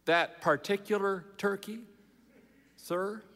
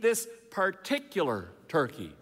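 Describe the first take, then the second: First: PARTICULAR TURKEY echoed with a questioning rise; polite, puzzled echo of PARTICULAR TURKEY; doubtful query. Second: Insist, spacing out PARTICULAR TURKEY; insistent. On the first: Manager doubtfully echoes Dave's words. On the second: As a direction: lean hard on PARTICULAR, then let TURKEY drop. Dave insists on his own turkey. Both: A narrator's reading.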